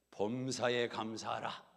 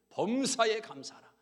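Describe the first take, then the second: First: Slow, weighty 범사에 감사하라; solemn verse. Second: 범사에 감사하라 higher and louder, 범사에 hit hard; proclaimed verse. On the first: Scripture verse coming to the wife's mind, slow and solemn. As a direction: recall the verse slowly and gravely. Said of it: "내 생각이 난 겁니다". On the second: Pastor proclaiming the miracle-bringing verse, loud. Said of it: "기적을 불러오는". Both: Retold or imitated.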